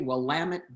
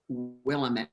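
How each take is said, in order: First: The name ends rhyming with 'damn it'. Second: The name ends sounding like 'met'. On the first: The speaker calls it right. "Just say Willamette, damn it" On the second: The speaker calls it wrong. "never say Willamette"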